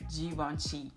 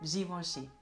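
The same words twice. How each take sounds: First: The middle vowel is an open E. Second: The middle vowel sounds like oh. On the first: The speaker calls it wrong. "it's not an open E. It's not Givenchy" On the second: The speaker calls it right. "pronounced like oh"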